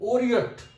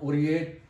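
First: The ending is a short 'ut' sound. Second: The ending is a long 'eight' sound. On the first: The speaker calls it right. "it gives us a sound ut, and here it is Oriot" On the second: The speaker calls it wrong. "not Oriate"

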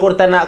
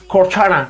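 First: It is said with a Spanish accent. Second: It is said with an English accent. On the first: The speaker calls it wrong. "pero no Cortana" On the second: The speaker calls it right. "como dicen ellos, que mola así"

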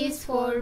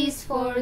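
No difference in how they are said.

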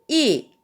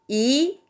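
First: It is said with the fourth tone. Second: It is said with the second tone. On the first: "4성은" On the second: "2성"

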